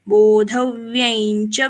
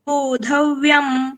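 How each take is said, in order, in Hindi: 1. च से पहले यह नासिक्य ध्वनि ny की तरह बोली जाती है। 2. अंतिम नासिक्य ध्वनि पूरे m की तरह बोली जाती है। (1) "अनुस्वार का उच्चारण य जैसे" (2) "म जैसे"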